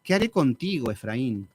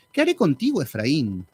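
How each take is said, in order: First: Said in the usual way. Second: Indignant God. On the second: Acted. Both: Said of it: "Dios así como indignado".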